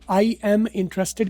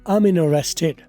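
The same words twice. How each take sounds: First: 'I am' is said as two full words. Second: 'I am' is reduced to one short syllable. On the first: The speaker calls it wrong. "की बजाय" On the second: The speaker calls it right. "आई एम को अम कर दिया।"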